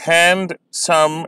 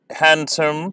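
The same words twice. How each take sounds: First: "handsome" drawn out as hand-some; slow syllables. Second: Said in the usual way. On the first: Shown as a demonstration. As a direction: split "handsome" slowly. ("handsome" धीरे, दो syllable में) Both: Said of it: "इन्हें मैं slowly pronounce करूँगा".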